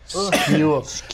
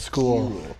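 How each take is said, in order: First: The word is said in a Dublin accent. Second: The word is said in a plain accent. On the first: "takes place in Dublin, and everybody says skule" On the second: "everybody says skule instead of school"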